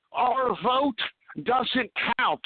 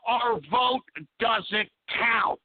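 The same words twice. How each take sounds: First: Each word spaced out and stressed; slow emphatic repeat. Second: Our vote doesn't count dragged out slowly; slow emphatic repeat. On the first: Shown as a demonstration. Host repeating to listeners, slow and emphatic. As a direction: hammer it into the listeners' heads. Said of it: "let me repeat that again so I can get through". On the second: Real, not acted. Host restating his complaint, drawn out slowly. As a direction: lay every word down heavily.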